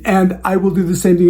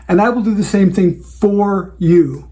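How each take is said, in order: First: Said in the usual way. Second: "for you" leaned on, set against "to you"; stress on for you. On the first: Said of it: "You notice that what I said is". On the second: Shown as a demonstration. Coaching planners on client promises, stressing "for you". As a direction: hit the words "for you". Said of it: "not to you".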